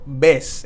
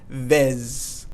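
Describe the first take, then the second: First: The word ends with an s sound. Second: The word ends with a z sound. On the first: The speaker calls it right. "the Z in Spanish has a S sound" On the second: The speaker calls it wrong. "and not vez"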